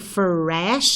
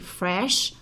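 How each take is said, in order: First: The R sound is strong and emphatic. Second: The R sound is soft and light. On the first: The speaker calls it wrong. "I don't say fresh" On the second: The speaker calls it right. "I say fresh"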